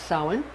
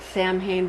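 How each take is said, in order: First: It is said differently from how the letters look. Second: It is said the way the letters look. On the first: The speaker calls it right. "I was taught that it's pronounced Samhain" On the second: The speaker calls it wrong. "It looks like you would pronounce it Samhain, but it's not really pronounced that way"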